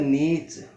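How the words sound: The word ends with a 'ch' sound. This is the American pronunciation. "USA में होता है नीच"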